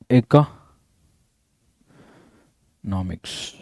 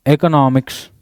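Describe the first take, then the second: First: economics stretched out very slowly, much lower and softer; economics dragged out slowly in a low, soft voice for dictation; drawn out. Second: Said in the usual way. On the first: Shown as a demonstration. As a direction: spell out ಎಕನಾಮಿක್ಸ್ syllable by syllable, low and slow.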